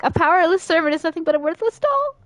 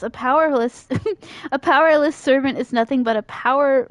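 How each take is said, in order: First: Rushes the line through cleanly; hurried, higher retake; fast clean retake. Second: Said in the usual way. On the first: Shown as a demonstration. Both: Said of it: "oh, I can't talk".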